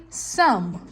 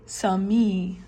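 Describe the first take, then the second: First: "some" slowly, as one beat; the right "some", one syllable; correct pronunciation. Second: "sami" slowly, with a wrong extra syllable; mock-wrong "sami" in two beats; wrong pronunciation. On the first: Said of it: "You say some". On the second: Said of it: "You don't say sami". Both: Shown as a demonstration.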